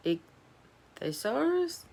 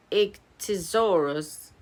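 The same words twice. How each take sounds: First: Ichthyosaurus asked back very slowly and softer, mangled; puzzled repeat. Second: Said in the usual way. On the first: Real, not acted. Girl stumbling over a hard word, slow and puzzled. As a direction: drag out Ichthyosaurus, baffled by the word. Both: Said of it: "Why do they make these words?".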